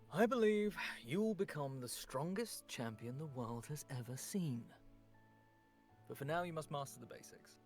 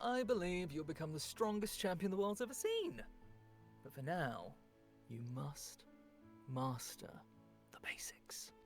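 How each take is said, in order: First: It starts plain and turns sassy at the end. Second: It starts sassy and turns serious at the end.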